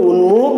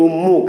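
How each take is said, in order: First: "উন্মুখ" slowly as un-mukh; original form. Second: "উন্মুখ" as um-mukh, doubled m; spoken form. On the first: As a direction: keep a distinct n before m in "উন্মুখ". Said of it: "শব্দটা ছিল". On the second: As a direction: turn n into m in "উন্মুখ". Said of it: "আর আমরা উচ্চারণ করি কি". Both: Shown as a demonstration.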